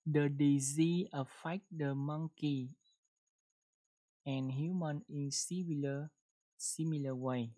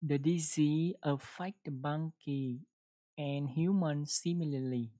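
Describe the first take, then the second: First: Slow model reading. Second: Careful reread. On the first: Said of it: "chúng ta đọc một câu nha". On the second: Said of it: "mình đọc gần đúng rồi đó". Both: Shown as a demonstration.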